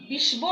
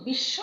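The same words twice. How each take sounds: First: বিশ্ব said as "bishbo", the ব sounded out; wrong pronunciation. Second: বিশ্ব said as "bissho", ব silent and শ doubled; correct pronunciation. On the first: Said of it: "আমরা বলি না". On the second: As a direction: drop the b in বিশ্ব and hold a double sh. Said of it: "কিন্তু বিশ্ব". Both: Shown as a demonstration.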